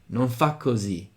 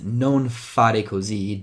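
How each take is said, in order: First: The verb's final re syllable is cut off. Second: The verb keeps its final re syllable. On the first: "In Roman it could be" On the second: "someone says"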